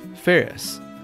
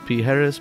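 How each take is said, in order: First: The name sounds like 'Ferris', two syllables. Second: The name sounds like 'Pijeres', three syllables. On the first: The speaker calls it right. "My birth name is [name]" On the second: The speaker calls it wrong. "Commonly mispronounced"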